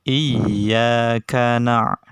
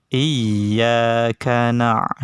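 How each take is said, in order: No difference in how they are said.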